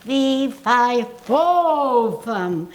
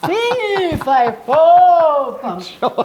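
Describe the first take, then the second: First: Booming fee-fi-fo-fum drill, louder; the coach's drill, done loud and round; voice exercise. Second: Big projected fee-fi-fo-fum, much louder and higher; second, bigger take of the coach's drill; louder voice exercise. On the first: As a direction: project it like a vocal warm-up. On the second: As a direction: push it out even bigger. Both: Shown as a demonstration. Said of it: "hold on to it and go".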